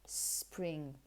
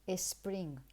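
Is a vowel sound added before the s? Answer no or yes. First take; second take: no; yes. First: The word starts directly with the s sound. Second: A short vowel is added before the s. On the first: The speaker calls it right. "avoid ... creating any vowels before that sound. No. It's spring" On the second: The speaker calls it wrong. "we tend to say something like is spring. No, no"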